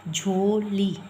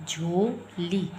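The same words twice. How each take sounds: First: Said in the usual way. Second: झोली said very slowly, vowels stretched; drawn-out jholi. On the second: Shown as a demonstration. Teacher to class, slowly spelling out झोली. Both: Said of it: "ज़्यादा stress दे के बोल रहे हैं".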